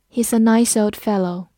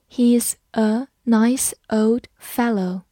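First: Said in the usual way. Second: Slow, careful read of the sentence. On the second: Shown as a demonstration. Teacher reading slowly for students to follow. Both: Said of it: "慢慢来读".

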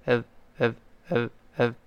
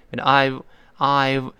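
First: I've reduced to a short, soft uhv; clipped weak form of I've, softly repeated; weakened vowel. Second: I've drawn out with a full eye vowel; slow careful model of I've; slow, full form. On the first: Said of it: "这个I的声音就弱化了". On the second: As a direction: say I've slowly, whole vowel then v. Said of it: "那I've是慢慢读". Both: Shown as a demonstration.

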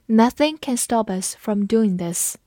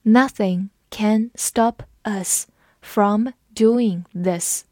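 First: Said in the usual way. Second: Slow, every word spaced out; slow classroom read-aloud. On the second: Shown as a demonstration. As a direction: read it slowly so learners can follow. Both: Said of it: "我们慢读一遍".

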